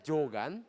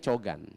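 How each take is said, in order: First: The word begins with a 'j' sound. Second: The word begins with a 'ch' sound. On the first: This is how the word is written. The speaker calls it wrong. "Tulisannya adalah Jogan" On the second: This is how the word is actually read. The speaker calls it right. "tapi dibacanya Cogan"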